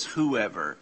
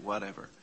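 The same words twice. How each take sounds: First: "whoever," said louder and set apart to stress it. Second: Said in the usual way. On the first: Shown as a demonstration. Teacher sets "whoever," against "whatever" with stress. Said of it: "in the Greek it says". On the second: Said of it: "R S V it's made it".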